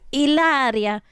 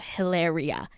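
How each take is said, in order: First: The name is said with an Italian-like sound. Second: The name is said with a plain English sound. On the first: "how she pronounces it, which is Hilaria. That's kind of Italian sounding" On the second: "I'm talking about Hilaria"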